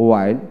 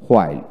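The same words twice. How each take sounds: First: ওয়াইল starting on w, no h; ওয়াইল with a plain w onset; British w pronunciation. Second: হোয়াইল with an audible h first; হোয়াইল starting on breathed hw; American h pronunciation. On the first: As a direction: drop the h in ওয়াইল. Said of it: "British উচ্চারণে". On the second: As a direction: sound the h in হোয়াইল. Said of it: "আমেরিকানে হ". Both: Shown as a demonstration.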